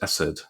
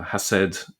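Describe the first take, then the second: First: The word starts directly with a vowel. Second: The word starts with a breathy h sound. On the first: "it's pronounced as ... the het sound has been dropped there" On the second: "instead of it being pronounced as"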